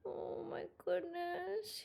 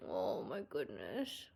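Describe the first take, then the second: First: Pitched-up, hushed slow "Oh my goodness"; high, soft drawn coo. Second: Deep, hushed slow "Oh my goodness"; low, soft drawn coo. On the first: Pet sitter hugging the cat, cooing high. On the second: Pet sitter hugging the cat, cooing low. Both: Real, not acted.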